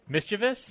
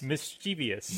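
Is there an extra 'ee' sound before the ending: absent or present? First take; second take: absent; present. First: It has no extra 'ee' sound before the ending. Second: It has an extra 'ee' sound before the ending. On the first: The speaker calls it right. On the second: The speaker calls it wrong. "No. Because there's no I"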